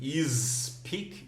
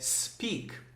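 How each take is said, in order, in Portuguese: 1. Começa com uma vogal acrescentada antes do s. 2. Começa direto com um som de s sibilante. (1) "como se você falasse assim, is speak, is speak, não" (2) "É speak"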